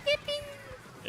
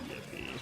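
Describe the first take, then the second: First: The word is said with lively, excited enthusiasm. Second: The word is said flatly, without any enthusiasm. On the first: "They do" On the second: "I don't really put my soul into it"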